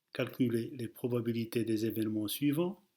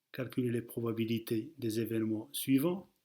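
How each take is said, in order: No difference in how they are said.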